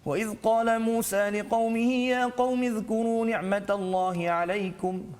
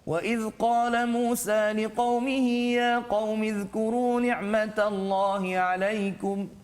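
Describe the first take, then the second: First: It is recited at a very fast pace. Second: It is recited at a moderate, medium pace. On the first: "bacaan yang paling laju pula dipanggil sebagai Al-Hadar" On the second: "Dia taklah sangat laju, tak sangat perlahan"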